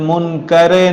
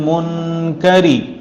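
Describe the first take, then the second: First: The word ends in an 'ay' vowel. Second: The word ends in a clear 'ee' vowel. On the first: The speaker calls it wrong. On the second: The speaker calls it right.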